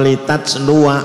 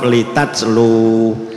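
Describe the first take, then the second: First: The word ends on 'luwa' with a final vowel. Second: The word ends on 'lu' with no final vowel. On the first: The reader continues into the next word. "jika wasol" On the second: The reader stops at this word. "jika waqaf"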